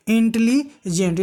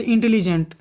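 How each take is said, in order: First: "intelligent" slowly, split into parts; broken up, drawn out. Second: Said in the usual way. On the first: Shown as a demonstration. Teacher showing a word that takes longer to say, drawn out. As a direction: stretch "intelligent" out, breaking before the last part. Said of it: "थोड़ा समय खींच रहा है". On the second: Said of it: "लेकिन इसको हम एक बार में नहीं बोल पा रहे हैं".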